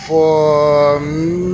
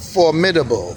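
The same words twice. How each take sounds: First: Formidable drawn out slowly and a bit louder; emphatic repeat. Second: Said in the usual way. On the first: Shown as a demonstration. Calligraphy teacher repeating the meaning for viewers, slow and emphatic. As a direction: lean into Formidable, slow and weighty.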